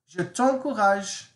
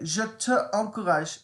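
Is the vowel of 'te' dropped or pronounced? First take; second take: dropped; pronounced. First: The vowel of te is dropped and linked. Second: The vowel of te is fully pronounced. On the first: The speaker calls it right. "Doesn't that sound much nicer?" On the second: The speaker calls it wrong. "it doesn't sound too pretty"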